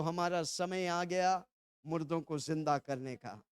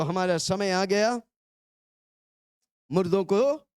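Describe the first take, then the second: First: Soft, low, measured declaration; feed the line softly for repeating; hushed, lowered prompt; congregational prompt. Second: Firm call-and-response cue; raised prompt, left open at the end; louder prompt. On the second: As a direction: say it out firmly for the crowd to repeat. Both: Shown as a demonstration. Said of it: "जोर से बोलो".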